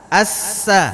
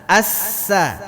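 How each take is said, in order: The two takes are said the same way.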